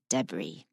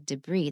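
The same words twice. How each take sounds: First: The stress is on the first syllable. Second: The stress is on the second syllable. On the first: This is the British way to say it. The speaker calls it right. "they say debris" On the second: This is not the British way to say it. The speaker calls it wrong. "They don't say debris"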